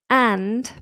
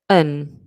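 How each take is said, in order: First: The word is said in full with its d. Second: The word is reduced to un without d. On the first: "when I say it slowly, I do the, the strong form" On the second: "this would become weak form, and we drop the D"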